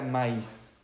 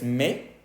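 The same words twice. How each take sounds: First: "maíz" drawn out as ma-ís; I pronounced separately. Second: "me" as a single open syllable; silent I and S. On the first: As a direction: break "maíz" into two syllables, final S heard. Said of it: "dos puntitos sobre la I". ("maíz" lento, con la I y la S pronunciadas) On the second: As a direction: say "me" with no final S. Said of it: "no escuchamos ni la I ni la S". ("me" como mé, sin I ni S) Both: Shown as a demonstration.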